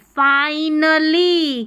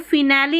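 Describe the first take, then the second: First: The first syllable has a long 'eye' vowel. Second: The first syllable has a short 'i' vowel. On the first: The speaker calls it right. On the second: The speaker calls it wrong. "अब इसको फिनैली नहीं पढ़ेंगे"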